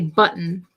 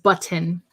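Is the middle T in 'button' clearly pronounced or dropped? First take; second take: dropped; clear. First: The middle T sound is dropped. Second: The middle T sound is clearly pronounced. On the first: "You don't pronounce the T's enough. ... So I say button" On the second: "instead of button"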